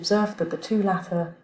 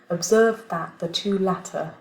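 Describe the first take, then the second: First: The word 'that' has a weak vowel. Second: The word 'that' has a full vowel. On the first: The speaker calls it right. "So the first one is going to be reduced" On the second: The speaker calls it wrong. "I'm just going to pronounce it with a strong form first"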